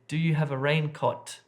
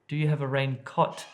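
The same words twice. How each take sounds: The two takes are said the same way.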